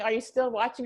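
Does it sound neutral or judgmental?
neutral. It is asked as a plain, neutral question.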